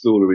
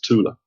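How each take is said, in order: First: The word begins with a 'th' sound. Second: The word begins with a plain 't' sound. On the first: The speaker calls it wrong. "often pronounced as Thula in American films" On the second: The speaker calls it right. "but it's Tula. There's no th in German"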